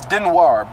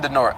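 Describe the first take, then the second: First: The name ends with a 'nwar' sound. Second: The name ends with a plain 'nor' sound. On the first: The speaker calls it right. "it's Denoir" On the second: The speaker calls it wrong. "I've been saying Denor"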